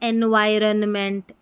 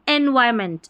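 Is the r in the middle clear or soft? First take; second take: clear; soft. First: The middle r is pronounced clearly and fully. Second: The middle r is soft, nearly silent, rounded. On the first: The speaker calls it wrong. "अगर हम ऐसे पढ़ेंगे एनवायरनमेंट, ऐसा थोड़ा उच्चारण सही नहीं आएगा" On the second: The speaker calls it right. "आर को अपने ही मुंह में राउंड करके बोला जा रहा है"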